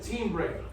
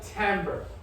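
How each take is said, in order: First: The word is pronounced as it is spelled. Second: The word is pronounced the American way. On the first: "they will not pronounce it timbre" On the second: "They call it timbre"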